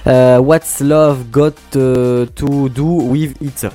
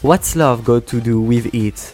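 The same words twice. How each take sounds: First: The English has a strong French accent. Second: The English sounds closer to a native accent. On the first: The speaker calls it wrong. "Oh là, mon accent anglais. Bon, désolé, là, je fais pas d'effort" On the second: The speaker calls it right. "c'est un peu mieux. Tu vois, quand j'ai mis l'accent, tu vois, c'est pas mal"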